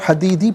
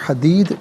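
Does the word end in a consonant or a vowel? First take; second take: vowel; consonant. First: The word ends with a long 'ee' vowel. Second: The word ends on a 'd' consonant. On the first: The reading continues without stopping. "हदीदी पढ़ेंगे" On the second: The reading stops at this word. "वफ़ की सूरत में हदीद पढ़ा जाएगा"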